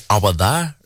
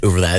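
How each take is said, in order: First: Rough Geordie attempt at "awa there". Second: Said in the usual way. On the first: Shown as a demonstration. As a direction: turn "over" into "awa", Geordie style. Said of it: "like Geordie people say ... they say". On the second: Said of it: "instead of saying over there".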